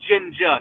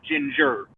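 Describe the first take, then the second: First: The word ends with an open 'ah' sound. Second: The word ends with an 'er' sound. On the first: The speaker calls it right. "put an A on the end" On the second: The speaker calls it wrong. "not ginger"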